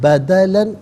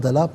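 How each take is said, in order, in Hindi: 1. शब्द 'an' की आवाज़ से खत्म होता है। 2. शब्द लंबी 'a' की आवाज़ से खत्म होता है।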